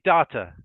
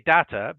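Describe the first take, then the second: First: Data with a British DAH-ta. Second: Data with an American DAY-ta. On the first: Teacher contrasts accents: British data, DAH-ta. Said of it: "in British English, we say". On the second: Teacher contrasts accents: American data, DAY-ta. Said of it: "in American English, they say". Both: Shown as a demonstration.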